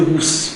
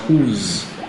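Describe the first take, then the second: First: The final consonant is a voiceless s sound. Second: The final consonant is a voiced z sound. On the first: The speaker calls it wrong. "You don't say whose" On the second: The speaker calls it right. "but whose, meaning what you have is"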